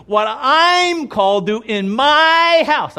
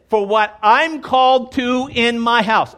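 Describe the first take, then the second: First: "called" stretched out slowly and firmly, louder and higher; slow emphatic repeat. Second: Said in the usual way. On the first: Shown as a demonstration. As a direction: land every word of "what I'm called to in my house". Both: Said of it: "I will say that again".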